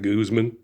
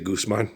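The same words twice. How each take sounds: First: The name is said a different, non-local way. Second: The name is said the New Mexico way. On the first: The speaker calls it wrong. "not Guzman" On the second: The speaker calls it right. "in New Mexico, we say"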